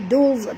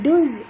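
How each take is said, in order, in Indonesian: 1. Bunyi z itu tebal dan berat. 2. Bunyi z itu tipis dan ringan. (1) "tapi duz, tebal" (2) "bukan duz"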